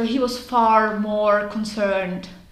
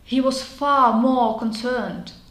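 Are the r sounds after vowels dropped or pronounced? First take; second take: pronounced; dropped. First: The r sounds after vowels are pronounced. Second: The r sounds after vowels are dropped. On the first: The speaker is American. "Američan by řekl" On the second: The speaker is British. "tak je to 100% Brit"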